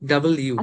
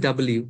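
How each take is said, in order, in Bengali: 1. অক্ষরের নামটি দুই ভাগে ভাগ করে বলা হয়। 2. অক্ষরের নামটি দুই ভাগে ভাগ করে বলা হয়।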